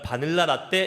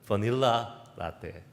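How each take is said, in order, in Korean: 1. 한국식 억양으로 발음해요. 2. 미국 영어 억양으로 발음해요. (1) "바닐라 라떼 이렇게 하기엔 못, 못 알아듣습니다" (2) "뭐라고 얘기해야 되죠?"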